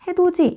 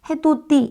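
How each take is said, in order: First: The middle consonant is a j sound. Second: The middle consonant is a plain d sound. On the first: The speaker calls it right. "이렇게 바뀌는 거거든요" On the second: The speaker calls it wrong. "이게 아니라"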